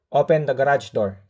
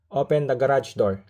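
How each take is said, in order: First: The command is said more loudly. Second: The command is said at a normal, softer volume. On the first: The speaker calls it right. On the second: The speaker calls it wrong.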